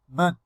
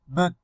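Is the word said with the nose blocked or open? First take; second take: blocked; blocked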